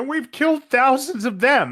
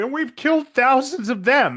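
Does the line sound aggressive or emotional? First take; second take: emotional; emotional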